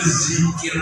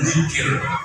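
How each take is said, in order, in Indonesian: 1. Kata ini dimulai dengan bunyi z yang bergetar. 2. Kata ini dimulai dengan bunyi dh yang lembut. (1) "di Jawa Barat itu zikir pakai zat" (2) "Kalau di sini mungkin kita mampu mengucapkan zikir"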